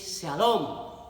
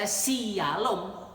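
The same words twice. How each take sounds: First: It begins with a single sh sound. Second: The s and y are sounded separately. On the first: The speaker calls it right. "tapi Shalom" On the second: The speaker calls it wrong. "tidak dibaca Shalom"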